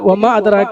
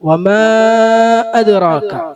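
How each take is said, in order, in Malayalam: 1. നീണ്ട സ്വരം രണ്ട് മാത്ര പിടിക്കണം. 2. നീണ്ട സ്വരം നാലോ അഞ്ചോ മാത്ര പിടിക്കണം. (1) "സാധാ രണ്ട് ഹർഫ് നീട്ടുക" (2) "നാലോ അഞ്ചോ ഹർഫ് നീട്ടുക"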